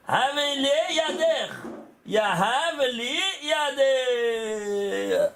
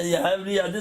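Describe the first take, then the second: First: Slow, drawn-out Hebrew intoning; slow recitation. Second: Said in the usual way. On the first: Shown as a demonstration. Teacher intoning the phrase slowly for the students. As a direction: stretch each syllable like a chant. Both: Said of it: "c'est quoi?".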